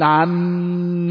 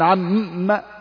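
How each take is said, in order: First: The doubled m is held with a nasal hum. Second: The doubled m is pressed with forceful stress. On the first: The speaker calls it right. "إذا أردت أن تقول عم يتساءل" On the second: The speaker calls it wrong. "لا تقول عم وهكذا"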